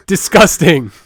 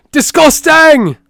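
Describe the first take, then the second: First: Said in the usual way. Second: Much higher, louder and slow, drawn-out "Disgusting!"; disgusted outburst. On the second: Acted. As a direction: stretch "Disgusting!" into a big, high, slow yell of disgust. Repeats the word, then escalates.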